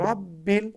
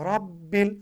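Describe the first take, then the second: No difference in how they are said.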